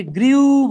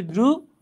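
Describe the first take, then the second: First: "গ্রিউ" stretched loud and high as gree-oo; "গ্রিউ" drawn out, ee sliding into oo; common mispronunciation. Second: "গ্রু" as groo, pure oo; "গ্রু" with r straight into oo; correct pronunciation. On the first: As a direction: exaggerate the glide in "গ্রিউ". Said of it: "আমরা অনেকে এটাকে গ্রিউ বলি". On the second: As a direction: say "গ্রু" in one short syllable, no glide. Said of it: "এটা উচ্চারণ হচ্ছে গ্রু". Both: Shown as a demonstration.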